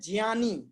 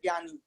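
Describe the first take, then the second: First: The first syllable is said as j followed by ñ. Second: The first syllable is said without the nasal ñ sound. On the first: This is how it should be said. The speaker calls it right. "लेकिन हमको क्या बोलना चाहिए" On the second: This is how people commonly say it. The speaker calls it wrong. "हम बोलते ऐसे हैं"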